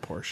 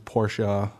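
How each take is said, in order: First: It is said with one syllable, no final vowel. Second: It is said with two syllables, ending in a vowel. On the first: The speaker calls it wrong. "not Porsche" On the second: The speaker calls it right. "he made it clear that it's Porsche"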